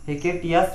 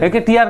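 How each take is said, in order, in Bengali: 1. নামটি s ধ্বনি দিয়ে শেষ হয়। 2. নামটি r ধ্বনি দিয়ে শেষ হয়। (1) "দুটোই এস আছে" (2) "হেকেটিয়ার না টিয়াস"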